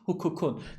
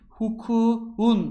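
First: The final k is kept as a hard k. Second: The final k is softened to a soft g. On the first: The speaker calls it right. "sakın buradaki K'yi yumuşak G'ye dönüştürme" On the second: The speaker calls it wrong. "Bunu gidip de cahil gibi hukukun yapmıyorsun"

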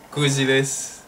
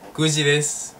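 Both takes have the same delivery.

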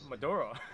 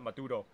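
First: It is said with an English pronunciation. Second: It is said with a Spanish pronunciation. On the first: The speaker calls it wrong. "I'm gonna call it Maduro" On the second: The speaker calls it right. "I was like Maduro"

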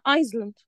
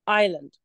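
First: An s sound is pronounced before the l. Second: No s sound is pronounced before the l. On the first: The speaker calls it wrong. "في ناس بتغلط وتقول عليها ايزلاند" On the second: The speaker calls it right. "الصح بتاعها ايه؟"

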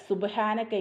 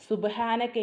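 Both takes have the same delivery.

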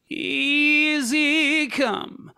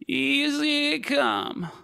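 First: A creaky onset fades into a clear tone. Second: The voice stays creaky the whole way through. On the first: "If you allow it to fade out into the tone, ... then we call it a creak" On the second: "then it's creaking, because there's creaking happening the whole way through"

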